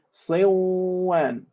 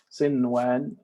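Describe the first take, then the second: First: The n sound merges into the following w. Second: The n sound is pronounced clearly before w. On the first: The speaker calls it wrong. "if we were to apply the rule of idgham, we would say" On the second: The speaker calls it right. "we are making idhar"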